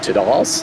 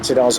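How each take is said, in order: First: The name is said in a posh accent. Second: The name is said in a plain accent.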